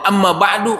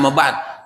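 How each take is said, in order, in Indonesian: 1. Kata terakhir berakhir dengan vokal u yang ditambahkan. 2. Kata terakhir berakhir dengan konsonan, tanpa vokal. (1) "ah dia baru belajar" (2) "harusnya amma ba'd"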